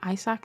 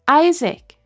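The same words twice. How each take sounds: First: The name is said with a Norwegian pronunciation. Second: The name is said with an English pronunciation. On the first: The speaker calls it wrong. "My Norwegian just came out instantly" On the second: The speaker calls it right. "Okay, that's more"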